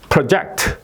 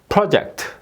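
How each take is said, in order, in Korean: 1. 강세는 두 번째 음절에 있어요. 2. 강세는 첫 번째 음절에 있어요. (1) "동사는 뒤에 액센트가 있다" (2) "명사일 때는 project"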